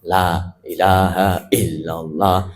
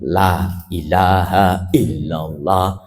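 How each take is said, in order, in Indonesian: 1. Setiap bunyi dan panjang vokal diucapkan dengan jelas. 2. Setiap bunyi dan panjang vokal diucapkan dengan jelas.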